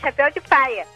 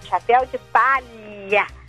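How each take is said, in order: First: The words are relaxed and run together. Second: Each word is pronounced fully and carefully. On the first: The speaker is relaxed at home. "quando nós estamos falando em casa, sossegado" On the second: The speaker is paying close attention to speech. "quando estamos prestando muita atenção"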